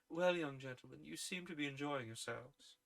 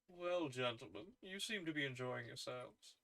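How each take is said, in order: First: It is said with only a slight accent. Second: It is said in a heavy Milrus character voice.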